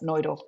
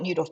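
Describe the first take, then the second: First: The name is said with a German-style pronunciation. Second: The name is said with an English-style pronunciation. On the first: "the Germans pronounce it Neudorf" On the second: "We call it Neudorf"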